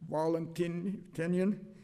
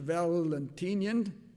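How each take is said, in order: First: The name is pronounced the Latin way. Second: The name is pronounced the English way. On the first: "as the Latins would say" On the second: "I'll use the English pronunciation"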